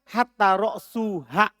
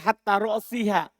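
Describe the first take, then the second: First: The vowel before -ha is u. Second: The vowel before -ha is i. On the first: Hatta begins a new clause with the nominative. "Dan boleh ropa" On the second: Hatta is read as a preposition governing the genitive. "boleh jar untuknya"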